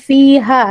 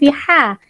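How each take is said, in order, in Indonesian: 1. Huruf h itu hembusan napas yang ringan dan lembut. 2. Huruf h itu bunyi yang berat dan dari tenggorokan. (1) "saya betulkan fiha ya" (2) "bukan fiha"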